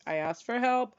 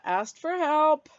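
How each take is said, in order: First: Said in the usual way. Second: "Asked for help" slow, high and loud, every word leaned on; emphatic pride. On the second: Real, not acted. Proud to tell viewers she asked, slow emphatic stress. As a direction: savour each word with pride.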